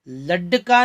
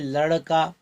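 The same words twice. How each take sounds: First: The middle consonant is a hard retroflex stop. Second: The middle consonant is a light retroflex flap. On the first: The speaker calls it wrong. "ड लड़का नहीं" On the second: The speaker calls it right. "बल्कि लड़का। शब्दों को एकदम हल्के से उच्चारण होता है"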